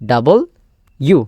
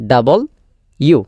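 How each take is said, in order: The two takes are said the same way.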